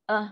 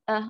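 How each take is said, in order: No difference in how they are said.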